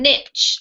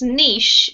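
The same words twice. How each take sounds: First: It is said with an American accent. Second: It is said with a British accent.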